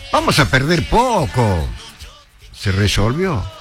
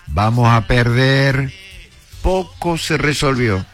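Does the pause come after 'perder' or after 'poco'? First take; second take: after poco; after perder. First: The pause comes after 'poco'. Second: The pause comes after 'perder'.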